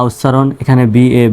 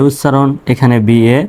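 No difference in how they are said.

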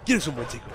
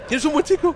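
First: Said in the usual way. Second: High, sing-song pet voice; praising a dog. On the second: Pretend. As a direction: coo at the dog like a pet owner. Talking to a dog.

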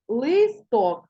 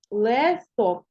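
First: Листок sounded as spelt, with a distinct И; clear И in Листок. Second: Листок said as «лесток», first vowel nearing Е; И heard as Е. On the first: Teacher showing pupils the spelling, Листок with a clear И. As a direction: say Листок carefully with a true И. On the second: Teacher showing pupils what we hear, листок as «лесток». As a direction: let the unstressed И in листок open toward Е. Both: Shown as a demonstration. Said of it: "тому І наближене до Е".

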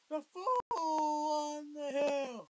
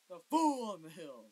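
First: Loud, slowly drawn-out title; shouting title. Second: Loud, at normal pace; just call the title out loud; shouting title. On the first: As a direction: stretch every word and shout it. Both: Real, not acted. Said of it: "And I'm just shouting".

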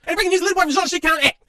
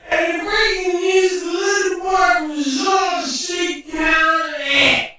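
First: Said in the usual way. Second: Slow, drawn-out sung take, high; slow sung line. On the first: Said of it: "repeated as sung take". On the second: Shown as a demonstration. Singing the line as a slow jingle. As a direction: croon it slowly like a jingle. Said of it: "second take sung slow".

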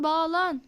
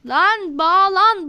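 First: Soft resigned repeat. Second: Slow, louder "bağlan" stretched out in annoyance; frustrated drawn-out plea. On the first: Player giving up on the lagging connection, soft resigned murmur. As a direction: let "bağlan" fall away softly. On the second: Player begging the lagging game to reconnect, slow louder fed-up plea. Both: Real, not acted.

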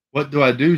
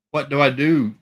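First: Said in the usual way. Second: Louder and higher, pleading. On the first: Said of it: "she asked". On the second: A narrator's reading. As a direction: raise the plea louder. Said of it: "she asked again, louder".

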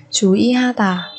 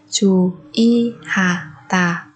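First: Said in the usual way. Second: Slow, spaced chú ý hà tà; syllable by syllable. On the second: Shown as a demonstration. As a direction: separate each syllable of chú ý hà tà. Teacher splits word by syllable. (đọc chậm chú ý hà tà từng âm tiết)

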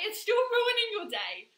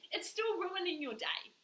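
First: "still ruining your day" driven home slow, high and loud; emphatic repeat. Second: Said in the usual way. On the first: Real, not acted. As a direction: lean hard on "ruining your day", louder and drawn out. Point repeated louder for emphasis.

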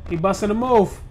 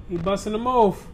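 No difference in how they are said.

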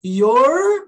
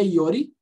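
First: YOUR held on a curled R, high and loud; "Your" drawn out into a loud retroflex R; final English R. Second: YORI with an extra "ee" at the end; "yori", Brazilian-style vowel ending; wrong added vowel. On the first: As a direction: stretch the R ending "Your", rising. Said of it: "tem um R aqui". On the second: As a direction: tap the R and add "i" in "yori". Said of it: "não é yori". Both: Shown as a demonstration.

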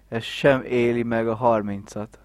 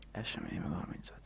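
First: Said in the usual way. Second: Fast hushed whisper. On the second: Retold or imitated. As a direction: whisper it quickly under your breath. Friend's remark repeated in whisper.

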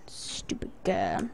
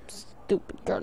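First: Slow whispered insult; breathy hushed put-down; whispering. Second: Whispered insult under breath; hushed mean aside; whispering. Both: Real, not acted. Muttered mock insult to character.

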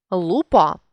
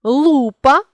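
First: Лупа with final ПА stressed; stress on last syllable. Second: Лупа with ЛУ stressed high; stress on first syllable. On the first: Teacher means dandruff, лупа stressed on ПА. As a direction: land on ПА ending лупа. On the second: Teacher means magnifying glass, Лупа stressed on ЛУ. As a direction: punch the opening ЛУ of Лупа. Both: Shown as a demonstration. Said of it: "залежно від наголосу".

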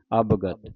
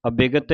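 First: ਅਵਗਤ as ab-gat, no i after the b; short first vowels. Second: ਅਬਿਗਤ as a-bi-gat, vowel after the b; added i vowel. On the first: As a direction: say ਅਵਗਤ in two tight beats. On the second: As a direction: sound the i in ਅਬਿਗਤ. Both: Shown as a demonstration. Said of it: "ਅਬਿਗਤ ਨਹੀਂ ਕਹਿਣਾ".

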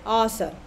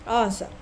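No difference in how they are said.

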